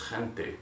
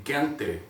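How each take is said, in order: First: "gente" with a throaty h-like g; Spanish throaty G. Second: "gente" wrongly with a hard g. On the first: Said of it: "it's gonna be". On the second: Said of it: "it's not gonna be". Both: Shown as a demonstration.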